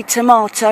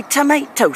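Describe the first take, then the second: First: "tomato" with a long AH in the middle, to-MAH-to; British tomato. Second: "tomato" with an AY in the middle, to-MAY-to; American tomato. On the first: Brit comparing words with Americans, "tomato" as to-MAH-to. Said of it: "We say tomato". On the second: Brit mimicking Americans, "tomato" as to-MAY-to. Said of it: "you say tomato". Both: Shown as a demonstration.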